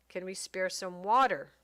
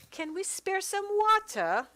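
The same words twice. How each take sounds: First: Said in the usual way. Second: Much higher, louder, slower put-on accent; spur-of-the-moment character accent for Mary Jane; sudden odd accent. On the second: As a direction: pitch "water" way up in a strange accent, "wɑtə" with no r. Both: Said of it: "I don't know where that accent came from".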